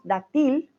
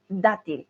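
First: Dátil stressed wrongly on the last syllable, da-TIL; wrong final stress. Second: Dátil stressed on the first syllable, DA-til; correct first-syllable stress. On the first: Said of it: "no decimos dátil". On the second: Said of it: "decimos dátil". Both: Shown as a demonstration.

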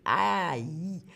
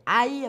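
First: Aïe said as a clear ai-ye diphthong; Aïe pronounced like the end of brailler; sound aïe. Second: Aïe repeated as the model sound ai-ye; aïe said clearly as in brailler. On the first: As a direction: spell out the sound Aïe slowly. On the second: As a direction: stress the sound aïe for learners. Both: Shown as a demonstration. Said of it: "C'est le son aïe".

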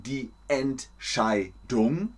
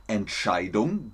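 First: "Entscheidung" slowly broken into syllables. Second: Said in the usual way. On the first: Shown as a demonstration. Teacher showing learners the word, "Entscheidung" slowly in separate syllables. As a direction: spell out the sounds of "Entscheidung", slowly, piece by piece. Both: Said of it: "Wir hatten jetzt das Wort".

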